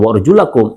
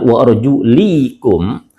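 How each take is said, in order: First: The vowel after the l is a. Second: The vowel after the l is i. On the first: The feet must be washed. "ketika dibaca dengan wa arjulakum" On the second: The feet may only be wiped. "dijarkan lamnya"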